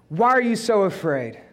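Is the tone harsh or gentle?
harsh. It is said harshly, like a rebuke.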